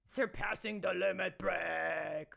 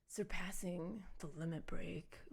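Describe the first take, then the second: First: It is said with lively enthusiasm. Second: It is said flatly, with indifference.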